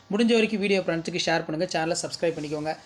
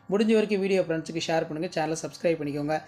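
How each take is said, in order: No difference in how they are said.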